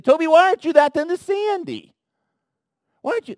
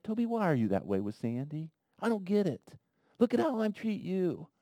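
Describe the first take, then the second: First: Loud, high, scolding demand; the wrong, harsh way God does not say it. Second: Gentle. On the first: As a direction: snap the question much higher and louder. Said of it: "he doesn't say it with that tone". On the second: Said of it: "He doesn't say that to me like that". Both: Pretend.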